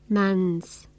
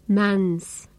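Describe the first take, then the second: No difference in how they are said.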